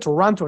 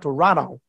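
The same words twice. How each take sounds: First: It is said the way locals say it. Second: It is said the way outsiders say it. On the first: The speaker is from the city. "You said Toronto, ... Like a real Torontonian" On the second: The speaker is not from the city. "not Toronto"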